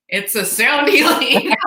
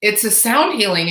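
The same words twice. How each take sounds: First: Higher, emphatic retold explanation with a laugh; laughing exasperation. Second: Said in the usual way. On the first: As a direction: spell it out, amused that it isn't landing. Repeats explanation to someone not getting it.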